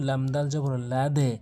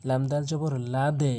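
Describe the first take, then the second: No difference in how they are said.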